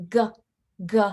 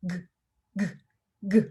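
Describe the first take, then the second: First: "g" with an added uh; wrong guh. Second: "g" short, from the back of the throat; clipped g. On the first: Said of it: "It's not". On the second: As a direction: keep "g" in the throat, no vowel. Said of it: "never really leave the back of your throat". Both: Shown as a demonstration.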